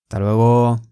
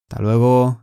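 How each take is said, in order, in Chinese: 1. "hasta"的"as"音被省略了。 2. "hasta"的"as"音被省略了。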